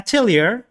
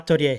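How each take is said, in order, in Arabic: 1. تُنطق بالطريقة الأمريكية، وتنتهي بـ "-leer". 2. تُنطق بالطريقة اليابانية، وتنتهي بـ "-orya". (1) "الامريكان طبعا يقولونها اتيلير" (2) "اليابانيين يقولونها اتوريا"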